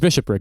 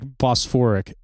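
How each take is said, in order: First: The word begins with a 'bish' sound. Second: The word begins with a 'bos' sound. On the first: The speaker calls it right. "It's bishopric" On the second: The speaker calls it wrong. "he pronounced it like Bosphoric"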